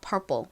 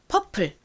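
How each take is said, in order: First: It is said American-style, with R and strong P. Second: It is said Korean-style, without an R sound. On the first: "미국식 원어 발음으로 하면 purple이라고 발음이 됩니다" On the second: "한국식으로 이제 영어를 표기할 때 주로 R에 리을 받침을 빼고 표기를 합니다. 그럼 어떻게 발음이 되나요?"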